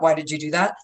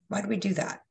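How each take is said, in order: First: It is said in a harsh, critical tone. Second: It is said in a gentle, loving tone.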